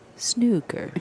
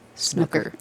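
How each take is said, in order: First: It is said the way people in England say it. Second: It is said the way people in Canada say it.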